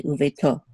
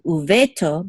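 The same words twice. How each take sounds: First: Uveto with the accent on its last syllable; stress on final to. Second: Uveto stressed before its final syllable; misplaced stress. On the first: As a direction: say uveto leaning on "to". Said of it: "the accent is on to". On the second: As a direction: put the accent on "ve" in uveto, not on "to". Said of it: "make sure that we don't say uveto". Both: Shown as a demonstration.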